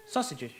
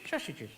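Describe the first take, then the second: First: Said in the usual way. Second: "Sausages" said as shaushages, softer; slushy s. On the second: Acted. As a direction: slur every s in "Sausages" into sh. Puppet repeats it with slushy s.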